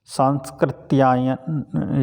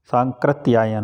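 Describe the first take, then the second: First: सांस्कृत्यायन read slowly with an extra स; wrong spelling read out. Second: सांकृत्यायन said without the स after सां; correct form. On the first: Teacher reads the exam's wrong word सांस्कृत्यायन slowly. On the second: Teacher corrects to सांकृत्यायन for exam students. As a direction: give the right form सांकृत्यायन plainly. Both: Shown as a demonstration. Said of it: "सांकृत्यायन होता है".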